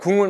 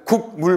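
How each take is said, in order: First: The first syllable ends with an ng sound. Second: The first syllable ends with a k sound. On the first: The speaker calls it right. "그냥 국물 맛이 좋다죠" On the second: The speaker calls it wrong. "이렇게 말하는 사람은 아무도 없어요"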